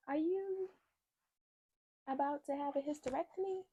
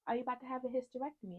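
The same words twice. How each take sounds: First: High, halting technician voice with long pauses; hesitant retold question. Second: Quick, high-pitched technician question; high and hurried, without pauses; repeated retold question. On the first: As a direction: imitate someone asking gingerly, pitched way up. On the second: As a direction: imitate the question in one fast run, pitched up. Technician's question repeated straight through.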